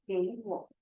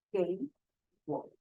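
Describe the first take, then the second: First: 给我 joined, 给 rising in second tone; tone change. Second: 给 and 我 apart, each in third tone; separate third tones. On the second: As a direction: cite 给, pause, then 我, both dipping. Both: Shown as a demonstration. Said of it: "change the first word into second tone".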